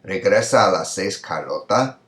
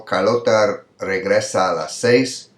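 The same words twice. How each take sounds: First: "Regresa a las seis, Carlota" rising on the last word; question intonation. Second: "Carlota regresa a las seis" stretched slowly; slow, measured "seis" at the close; example statement. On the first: Teacher showing the inverted question, rising tune. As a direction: lift "Carlota" at the end to ask. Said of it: "went to the very end of the question". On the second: Teacher reading an example before inverting it, slow statement. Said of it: "Here, this example". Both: Shown as a demonstration.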